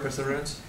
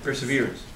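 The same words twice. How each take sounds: First: French-accented "perseverance", sounded "per-SEV-er-ance". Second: "Perseverance" sounded "per-suh-VEER-ance"; English pronunciation. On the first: Real, not acted. Asking if it is an English word, French accent. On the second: Shown as a demonstration. Correcting the word for listeners, English pronunciation. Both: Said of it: "say it with the French accent".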